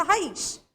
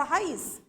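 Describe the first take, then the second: First: "raiz" ending in a hushing "sh"; Rio final SH. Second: "raiz" ending in a plain "s" sound; non-Rio final S. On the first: Teacher showing the local Rio way, "raiz" with final sh. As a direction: say "raiz" as "ha-EESH", Carioca style. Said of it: "Aqui no Rio a gente fala". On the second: Teacher quoting how other regions say it, "raiz" with a plain S. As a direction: say "raiz" as "ha-EES", with no sh. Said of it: "em outros lugares". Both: Shown as a demonstration.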